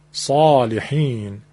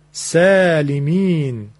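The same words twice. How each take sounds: First: صالحین drawn out with heavy throaty ص; slow, deep صالحین; slow emphatic saalihin. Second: سالمین drawn out with a light س; slow thin-s سالمین; slow plain saalemin. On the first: Teacher showing correct ص to listeners. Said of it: "این شد صاد درست و صحیح". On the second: Teacher contrasting light س with heavy ص. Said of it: "پس به این ترتیب". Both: Shown as a demonstration.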